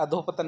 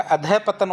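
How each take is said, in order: First: अधोपतन run together with an o; teacher says the wrong अधोपतन, softer; wrong form. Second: अधः पतन with a clear break after अधः; teacher stresses अधः pause पतन; right form. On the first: Teacher shows the mistaken form, run together. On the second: Teacher corrects students, अधः then पतन. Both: Shown as a demonstration. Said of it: "अधोपतन नहीं होता".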